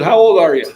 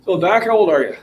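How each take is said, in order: First: Loud, high-pitched shout; louder repeat. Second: Raised voice, higher pitch; calling out. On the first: Repeating to Doc who has earbuds in, shouting. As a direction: shout it to get through earbuds. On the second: Gym-goer asking Doc his age, calling out. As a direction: call the question over to someone. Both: Real, not acted.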